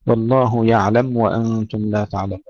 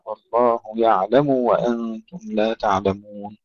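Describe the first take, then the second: First: يعلم with the ضمة bleeding into the و; wrong vowel on mim. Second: يعلم with a short, clean ضمة on the م before و; correct damma on mim. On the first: Teacher shows what we do not say, wrong. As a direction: let the mim of يعلم slide into the waw. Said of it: "لا نقول". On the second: Teacher gives the proper reading instead, correct. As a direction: close the mim of يعلم crisply, then the waw. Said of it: "وإنما". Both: Shown as a demonstration.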